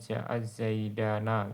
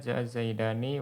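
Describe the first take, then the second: First: The last word ends in an a sound. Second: The last word ends in an i sound. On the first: This is a little-known dialect form. The speaker calls it wrong. "ada juga dialek yang memfathahkan" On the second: This is the best-known form. The speaker calls it right. "nun pada musanna itu dikasrohkan"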